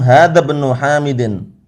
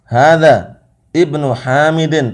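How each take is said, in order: First: The words run together, glottal stop dropped. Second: A pause comes before ibnu, glottal stop pronounced. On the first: The words are read joined together. "Kalau sambung dia sakotot. Hamzahnya ini hilang" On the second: The words are read as separate, stopping between them. "Bukan sambung wakaf"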